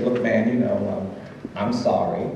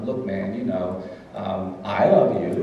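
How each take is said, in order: First: Said in the usual way. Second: Slow, grudging, lower "I love you"; insincere. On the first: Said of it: "and I said". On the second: Retold or imitated. A boy forced by his mother to say "love", slow and grudging. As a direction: drag out "love" like a kid forced to say it. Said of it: "as insincerely as I possibly could".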